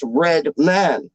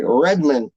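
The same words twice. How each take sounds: First: "Red Man" slowly, as two full words; correct pronunciation. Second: "Redman" as one word, second syllable swallowed to "mun"; others' mispronunciation. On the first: Rapper correcting how people say his name, two stressed words. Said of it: "But it's Red Man". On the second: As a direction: say "Redman" quickly with a weak "man". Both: Retold or imitated.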